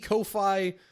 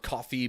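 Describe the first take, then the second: First: It is said unlike the word coffee. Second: It is said like the word coffee. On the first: "Could be Ko-fi" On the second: "I'm pretty sure it's pronounced Ko-fi because there's like a little coffee mug"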